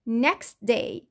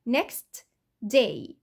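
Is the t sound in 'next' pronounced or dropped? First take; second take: dropped; pronounced. First: The t sound in 'next' is dropped. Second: The t sound in 'next' is pronounced. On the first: This is connected, fast speech. "في الكونكتد سبيتش او الكلام السريع هتلاقوا صوت الت ده اختفى" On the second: Each word is read on its own. "في الستاندرد pronunciation لما اجي اقرا كل كلمه لوحدها"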